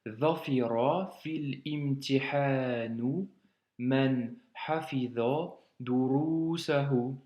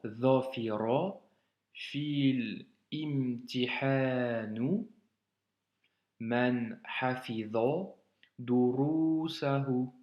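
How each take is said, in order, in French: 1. Elle est lue plus vite, d'un seul trait. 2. Elle est lue lentement, morceau par morceau.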